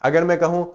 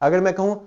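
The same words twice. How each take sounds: The two takes are said the same way.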